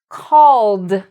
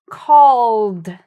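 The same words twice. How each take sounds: No difference in how they are said.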